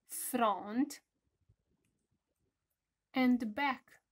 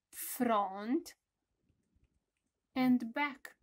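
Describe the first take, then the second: No difference in how they are said.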